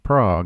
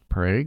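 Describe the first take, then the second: First: The word is said the usual worldwide way. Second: The word is said the local Oklahoma way. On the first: This is how the city is named everywhere else. "Everywhere else in the world, it's pronounced Prague" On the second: This is how the town in Oklahoma is named. "Only in Oklahoma is it pronounced Prague"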